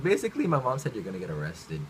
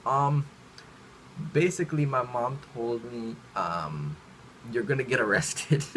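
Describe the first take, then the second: First: Said in the usual way. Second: Halting, with ums and pauses between phrases; hesitant blurting. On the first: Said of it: "I was just like". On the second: Retold or imitated. Kid telling a classmate what mom said, hesitant and halting. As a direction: break it up awkwardly, feeling for the words. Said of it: "I didn't say anything properly".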